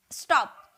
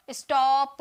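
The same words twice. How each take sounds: First: "स्टॉप" short, as one syllable; single-beat "स्टॉप" with no added vowel; one single sound. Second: "स्टॉप" stretched into is-taw-puh, louder; exaggerated wrong "स्टॉप" in drawn-out beats; split into syllables. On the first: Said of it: "एक ही बार में". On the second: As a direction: break "स्टॉप" up, with an added vowel after the P. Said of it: "ऐसे थोड़ी बोल रहे हैं". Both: Shown as a demonstration.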